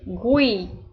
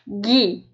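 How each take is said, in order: First: The U is sounded after the G. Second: The U is silent after the G. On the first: The word is written with a dieresis over the U. "Se eu precisar, no caso, pronunciar a letra U, ele vai vir com o tremazinho" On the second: The word is written without a dieresis. "Se não, você vai ler como se fosse Gui"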